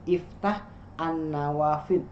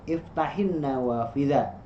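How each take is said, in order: First: The 'a' of 'an' is pronounced separately. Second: The 'a' is dropped, linking as 'iftahin'. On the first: The speaker calls it wrong. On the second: The speaker calls it right. "Karena hamzah wasal kalau di tengah hilang a-nya"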